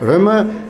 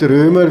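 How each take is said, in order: First: The vowel before the M is short. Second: The vowel before the M is long. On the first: This is how the name is actually spelled and said. The speaker calls it right. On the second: This is how some people say the name. The speaker calls it wrong.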